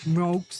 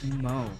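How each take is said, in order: First: The name ends with a k and s sound. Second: The name ends on an open vowel sound. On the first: The speaker calls it wrong. "I've had people call m- m- mokes" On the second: The speaker calls it right. "No, guy, it's Mo"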